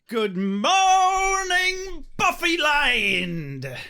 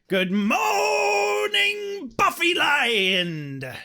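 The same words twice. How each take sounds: First: It is said without a growly voice. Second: It is said in a growly Smee voice.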